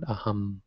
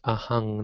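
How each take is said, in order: First: The word ends with an m sound. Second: The word ends with an ng sound. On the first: The speaker calls it wrong. "not aham" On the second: The speaker calls it right. "So in the beginning there it's ahang"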